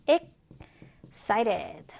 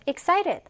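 First: EXCITED drawn out, paused after "ex"; stretched-out teaching model of "excited"; slow syllable-by-syllable. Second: Said in the usual way. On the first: Shown as a demonstration. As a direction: say "excited" very slowly, split after the first syllable. Teacher models word broken into syllables.

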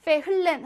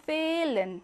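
First: 페흘렌 with an audible 흘; h wrongly sounded. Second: 페일렌 with a long held e, no h; silent h, long vowel. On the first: Teacher showing the wrong reading, audible h in 페흘렌. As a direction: break 페흘렌 with a spoken h. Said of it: "하지 않고". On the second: Teacher showing the right reading, long e in 페일렌. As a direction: stretch the first vowel of 페일렌. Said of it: "모음을 길게 만들어줍니다". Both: Shown as a demonstration.

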